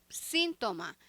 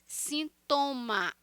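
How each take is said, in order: First: The stress is not on the middle syllable. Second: The stress is on the middle syllable. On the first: "Em espanhol" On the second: "Em português, sintoma. A sílaba tônica é a penúltima sílaba"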